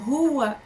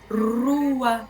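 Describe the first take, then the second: First: The R is a fricative at the back of the mouth. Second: The R is a vibrant sound behind the teeth. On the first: "a fricativa velar" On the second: "a fricativa alveolar, que ele é um R mais, mais vibrante"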